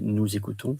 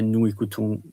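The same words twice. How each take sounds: First: A z sound links into the next word. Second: The words are said separately without linking. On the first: The speaker calls it right. "you say nous écoutons for the fluidity" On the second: The speaker calls it wrong. "You don't say nous écoutons"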